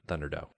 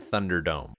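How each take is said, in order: First: The word ends without any M sound. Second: The word ends with a clear M sound.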